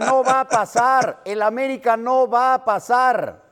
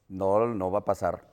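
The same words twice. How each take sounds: First: It is said with more force and emphasis. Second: It is said in a plain, ordinary way.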